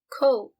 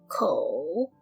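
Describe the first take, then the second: First: The syllable is said without a dipping tone. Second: The syllable has a dipping third tone.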